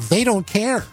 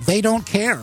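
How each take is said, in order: Both takes have the same delivery.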